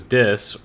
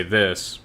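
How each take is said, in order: First: "dis" with a hard d instead of th; Grail's "dis" with a d; dropped th. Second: Plain "this" with th; standard th. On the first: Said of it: "when she says". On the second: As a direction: say "this" properly with th. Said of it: "it would say". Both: Shown as a demonstration.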